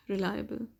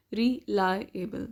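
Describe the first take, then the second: First: Said in the usual way. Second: "reliable" slowly broken into re-lie-able; syllable by syllable. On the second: Shown as a demonstration. Teacher counting syllables for learners, "reliable" broken up slowly. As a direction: sound out "reliable" in separate, slow parts. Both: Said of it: "It has three syllables".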